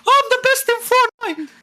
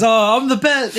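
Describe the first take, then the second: First: Very high, mocking little-kid squeal; nine-year-old voice. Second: Said in the usual way. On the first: Cousin bragging about being best in Fortnite, nine-year-old voice. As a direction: imitate a boastful little boy, pitched way up. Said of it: "nine-year-old voice". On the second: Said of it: "in his fucking little eight, nine-year-old voice".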